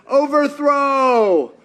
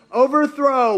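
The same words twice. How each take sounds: First: Overthrow stretched long and a little louder; drawn-out rally cry. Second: Said in the usual way. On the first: Pretend. Preacher echoing the crowd, a drawn-out rally cry. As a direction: chant it like a slow rally call. Crowd answer: revolution against Rome.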